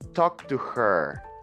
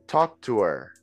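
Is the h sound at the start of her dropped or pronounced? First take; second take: pronounced; dropped. First: Her is said fully, with the h sound. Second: Her is reduced to er, without h. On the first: The speaker calls it wrong. "like to emphasize that H is not necessary" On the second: The speaker calls it right. "when we are speaking fluently, we just say er"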